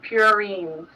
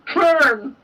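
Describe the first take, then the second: First: The word is said with a long E sound. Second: The word is said without a long E sound. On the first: The speaker calls it right. "Long E, trust me. Oh, okay, purines" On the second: The speaker calls it wrong. "I'm going to keep saying it wrong"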